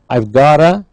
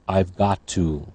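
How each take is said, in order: First: The words are blended into a reduced form. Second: Each word is said fully and separately. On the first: "I'll give a reduced form" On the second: "We call them full forms"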